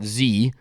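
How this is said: The letter is named in the American way. "you guys call it Z"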